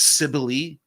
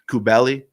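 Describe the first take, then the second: First: The name begins with an S sound. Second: The name begins with a K sound. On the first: This is the English form of the name. The speaker calls it wrong. "it's anglicized as Cybele, but I can't stand that" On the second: This is the Greek form of the name. The speaker calls it right. "I like to go with the Greek pronunciation"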